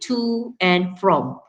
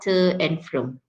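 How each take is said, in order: First: Both prepositions are said in their full forms. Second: Both prepositions are said in their reduced forms. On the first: The speaker calls it right. "you have to use the strong forms for both prepositions. You say to and from" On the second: The speaker calls it wrong. "not to and from"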